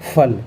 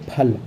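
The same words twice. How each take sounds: First: The lips do not touch for the first sound. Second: The lips touch for the first sound. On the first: "नुक्ता लग जाएगा तो फिर हम पढ़ेंगे फल, मतलब ओंठों को टच नहीं होने देना होता है" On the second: "फा में अगर नुक्ता नहीं लगा है तो उसको हम पढ़ेंगे फल"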